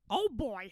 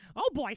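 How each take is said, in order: First: The voice is slower and lower in pitch. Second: The voice is faster and higher in pitch. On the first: "Original Mickey" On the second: "And then my Mickey"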